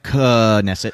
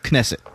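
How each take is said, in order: First: The opening K sound is not quick. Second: The opening K sound is quick. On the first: The speaker calls it wrong. "not like Knesset" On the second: The speaker calls it right. "with a quick K sound"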